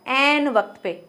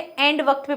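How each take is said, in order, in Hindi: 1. पहला शब्द n ध्वनि पर खत्म होता है। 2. पहला शब्द d ध्वनि पर खत्म होता है। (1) "एंड नहीं होता, एन होता है" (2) "हम बोलते थे एंड वक्त पे पहुंच गई"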